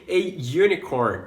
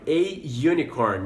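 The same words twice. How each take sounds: First: "a unicorn" with a "yoo" start; "unicorn" begins with a y sound; "a unicorn", slow; model pronunciation. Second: "a unicorn" again, "yoo" start; "a unicorn", slowly; y sound in "unicorn"; repeat model. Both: Shown as a demonstration. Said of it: "Pela mesma lógica também".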